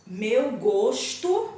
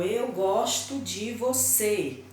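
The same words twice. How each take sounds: First: "gosto" said slow and loud, with a closed o, as in the noun. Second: "gosto" said with a closed o, as in the verb; open o in gosto. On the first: Teacher contrasts "gosto" said slow, with a closed o, as in the noun. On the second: Teacher shows "gosto" said with a closed o, as in the verb. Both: Shown as a demonstration. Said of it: "eu pronunciei totalmente diferente".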